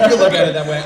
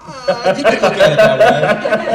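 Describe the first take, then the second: First: Said in the usual way. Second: Laughing through the words; amused, laughing it off. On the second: Real, not acted. Laughing off nepotism question.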